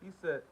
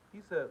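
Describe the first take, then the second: No difference in how they are said.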